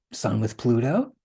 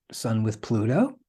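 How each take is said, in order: Both takes have the same delivery.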